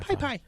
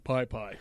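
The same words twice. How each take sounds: First: The voice is raised on both words. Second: The voice stays at a plain level. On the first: The speaker calls it right. "I even raise my voice when I say it" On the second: The speaker calls it wrong. "It doesn't sound right going"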